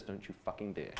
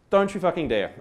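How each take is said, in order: First: A much softer, strangled mock threat with a laugh; girlfriend's horrified low warning over the table. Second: Said in the usual way. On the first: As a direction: imitate her hissed warning, voice pulled right down. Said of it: "looks at me with this look of horror". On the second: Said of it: "Word for word".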